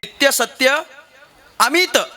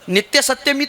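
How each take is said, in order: First: Satya and amit are said as separate words. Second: Satya and amit are joined into one word.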